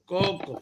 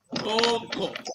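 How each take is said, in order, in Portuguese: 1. As vogais são pronunciadas curtas. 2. As vogais são pronunciadas longas. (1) "exemplos de vogais breves" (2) "algumas vogais longas, com as mesmas expressões"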